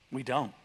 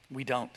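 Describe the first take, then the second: No difference in how they are said.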